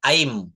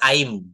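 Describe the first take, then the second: First: I am is blended into one syllable. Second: The same.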